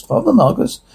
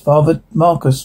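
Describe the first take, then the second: First: "Father Marcus" started high, then falling; puzzled echo. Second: Said in the usual way. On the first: Acted. Character repeating an unknown priest's name, puzzled. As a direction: echo "Father Marcus" back, pitched up in query. Name echoed back as question.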